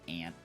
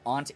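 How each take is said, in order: First: The vowel is said with a nasal A. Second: The vowel is said without a nasal A. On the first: This is how people say it here. "we do the nasally A here" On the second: This is another acceptable way to say it. "But aunt is acceptable"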